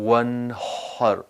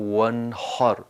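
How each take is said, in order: The two takes are said the same way.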